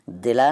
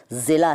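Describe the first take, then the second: First: दिला opening on d. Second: Said in the usual way. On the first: Shown as a demonstration. Teacher quizzing viewers, दिला with d for z. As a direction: start दिला with d, not z. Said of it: "नहीं कहते ना". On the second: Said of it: "दिला नहीं कहते ना".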